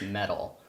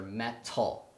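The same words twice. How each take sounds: First: The word is said casually and quickly. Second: The word is said with every sound crisp. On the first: "like most Americans, where it's just metal" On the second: "But for Apollo, we made sure metal"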